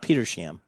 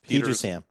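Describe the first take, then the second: First: The name breaks after Peter, ending in sham. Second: The name breaks after Peters, ending in ham. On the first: The speaker calls it wrong. "not Petersham" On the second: The speaker calls it right. "there's no sham. It's Peter's Hamlet"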